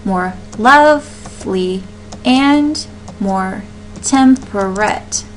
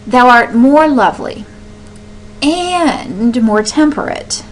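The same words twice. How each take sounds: First: "more lovely" and "and more temperate" spelled out slowly, beat by beat; slow scansion. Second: "more" pushed up and held in "more lovely" and "more temperate", with the line read slower at the end; stress on more. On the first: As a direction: count the meter out syllable by syllable. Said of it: "and more would be unstressed". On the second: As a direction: lean on each "more" as you scan the verse. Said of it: "go on ahead and emphasize it". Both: Shown as a demonstration.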